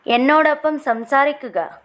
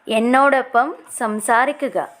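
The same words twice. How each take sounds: The two takes are said the same way.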